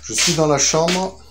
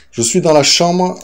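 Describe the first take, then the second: First: Said in the usual way. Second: Loud call through the house; calling from another room. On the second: Real, not acted. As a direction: raise the voice to reach upstairs. Calls out after going downstairs.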